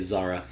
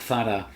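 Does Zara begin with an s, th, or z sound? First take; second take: z; th. First: It begins with a z sound, English style. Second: It begins with a th sound, Castilian style.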